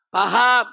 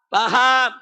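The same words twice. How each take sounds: The two takes are said the same way.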